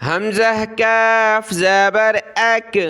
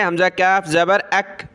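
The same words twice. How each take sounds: First: Measured drill, کاف as "kyaaf", not heavy; thin kaf. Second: Quick run-through with a thin, light کاف; short کاف and brisk اک, light k; thin kaf. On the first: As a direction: stretch کاف and end اک on a light k. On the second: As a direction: rattle it off, keeping کاف thin. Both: Shown as a demonstration. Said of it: "اس کو پتلا پڑھنا ہے".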